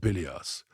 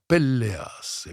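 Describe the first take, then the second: First: The L sound is single and short. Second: The L sound is doubled and held long. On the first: The speaker calls it wrong. "tu vas pas dire Péléas" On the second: The speaker calls it right. "tu vas dire Pelléas"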